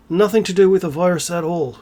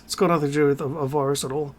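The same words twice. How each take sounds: First: "Nothing to do with a virus at all" restated firmly; "virus at all" held up, not trailing away; emphatic repeat. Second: Said in the usual way. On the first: Real, not acted.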